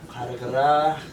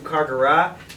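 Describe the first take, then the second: First: It is said with a Tuvan pronunciation. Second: It is said with an American Midwestern accent. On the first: "In Tuvan we would say" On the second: "at least that's how we would say it in a Midwestern accent of American English"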